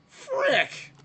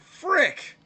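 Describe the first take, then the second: First: It is said imitating one of those white guys. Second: It is said in his own natural voice.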